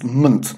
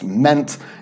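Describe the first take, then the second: First: The vowel is reduced to a schwa. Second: The vowel is a full, clear vowel. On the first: The speaker calls it right. "it's pronounced munt" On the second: The speaker calls it wrong. "isn't pronounced meant"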